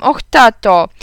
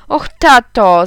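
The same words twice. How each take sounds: First: Loud whiny plea to dad, repeated; pleading cry again. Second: Loud whiny plea to dad; pleading cry. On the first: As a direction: beg again with the same wail. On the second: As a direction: wail it like a sulking boy. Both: Acted. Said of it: "zawołałem". (głośne błagalne jęczenie)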